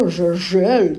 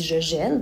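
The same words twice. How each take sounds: First: Gèle mispronounced as "jeule", louder; wrong schwa in gèle. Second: Gèle said correctly as "jèle", with open è. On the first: Teacher showing what you don't say, gèle as a louder "jeule". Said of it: "tu dis pas". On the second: Teacher showing what you do say, gèle with open è. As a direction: say gèle with the vowel of "belle". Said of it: "tu dis". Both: Shown as a demonstration.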